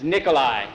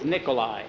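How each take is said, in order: First: "Nikolai" said more firmly and forcefully; emphatic repeat. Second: Said in the usual way. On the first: A narrator's reading. Newcomer correcting "Nickel who", firm repeat of "Nikolai". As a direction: repeat "Nikolai" with firmer weight. Repeats name after being misheard.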